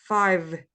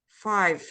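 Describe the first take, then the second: First: The word ends with a clear v sound. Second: The word ends with a clear v sound.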